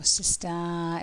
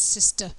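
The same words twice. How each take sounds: First: The last syllable has a full, strong vowel. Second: The last syllable has a weak schwa vowel. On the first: The speaker calls it wrong. "we don't say sister" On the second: The speaker calls it right. "it's sister. Very small sound"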